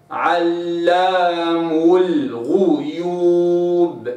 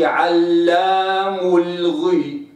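First: علام الغيوب with a rounded غ, very slow; right damma on ghain. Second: علام الغي with the ghain read with kasra, slow; slow wrong reading, غ broken with i. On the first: Teacher showing the correct reading, slow and rounded. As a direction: give الغيوب its damma, held long. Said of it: "لابد أن أراعي الضم". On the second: Teacher showing the mistake, slow wrong reading. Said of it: "ما أقولش". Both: Shown as a demonstration.

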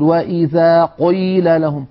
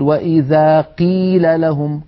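First: قيل said like قُل, ق thick and dark, slow; over-heavy qaf. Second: قيل with ق thinned toward a kaf, slow; over-thinned qaf. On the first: Teacher mocks reciters overdoing heavy ق. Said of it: "هذه مبالغة ممجوجة". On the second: Teacher mimics reciters who soften ق in قيل. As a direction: make ق in قيل nearly a ك. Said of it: "يجعلونه قريبا من الكاف". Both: Retold or imitated.

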